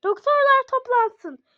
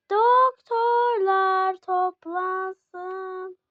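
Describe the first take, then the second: First: High, loud hospital page; high loud intercom call; loud announcement. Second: Very slow, stretched announcement; slow stretched hospital call; drawn-out page. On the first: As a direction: call the doctors over the speaker. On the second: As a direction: drag every syllable like a page. Pretend hospital page for doctors. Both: Pretend.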